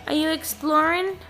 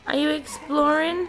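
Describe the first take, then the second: First: Pet talk. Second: Slower pet talk. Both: Real, not acted. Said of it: "repeats question to pet".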